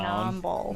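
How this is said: Nine is drawled like 'nawn' in a Southern accent.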